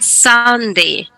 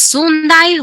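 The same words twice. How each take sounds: First: It is said with English vowel sounds. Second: It is read as spelled, Spanish style. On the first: The speaker calls it right. "we say Sunday" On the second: The speaker calls it wrong. "No es Sunday"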